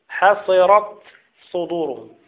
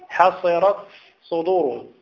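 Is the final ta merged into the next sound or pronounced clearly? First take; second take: clear; clear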